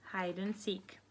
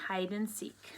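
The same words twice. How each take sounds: The two takes are said the same way.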